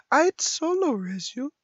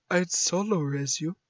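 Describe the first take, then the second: First: Same line pitched way up; higher put-on game-character voice. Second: Said in the usual way. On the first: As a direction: lift it into a high, questioning voice.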